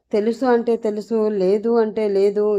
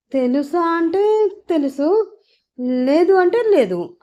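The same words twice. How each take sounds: First: Questioning repeat of a silly answer; somewhat serious. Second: High, drawn-out hedging; silly evasive answer. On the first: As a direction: repeat it back with restrained irritation. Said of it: "కొంచెం సీరియస్గా అడిగాడు Prithvi". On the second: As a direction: stretch it out awkwardly in a lifted voice. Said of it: "తింగర సమాధానం ఒకటి చెప్పింది". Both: A narrator's reading.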